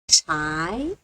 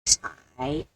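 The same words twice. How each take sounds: First: The pitch rises from middle to high. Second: The pitch dips low, then rises. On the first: "Second toe" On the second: "Third toe"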